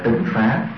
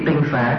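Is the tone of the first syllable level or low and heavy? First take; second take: low heavy; level. First: The first syllable has a low, heavy tone. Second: The first syllable has a level tone. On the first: The speaker calls it wrong. "chứ không phải là tịnh xá" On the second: The speaker calls it right. "để ý tinh xá"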